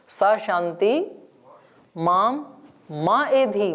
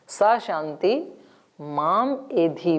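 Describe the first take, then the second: First: The word 'ma' carries a raised pitch. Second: The word 'ma' carries a lowered pitch. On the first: It means may peace not come to me. "उदात्त होते ही मां का अर्थ निषेध हो जाएगा" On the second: It means may peace come to me. "अनुदात्त है तो उसका अर्थ हो जाएगा मुझे"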